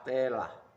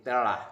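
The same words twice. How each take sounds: First: The first vowel is a full e sound. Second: The first vowel is a weak schwa. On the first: The speaker calls it wrong. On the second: The speaker calls it right. "bunyi tipis"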